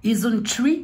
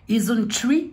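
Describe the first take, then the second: First: The name is said with a foreign accent. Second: The name is said with a foreign accent.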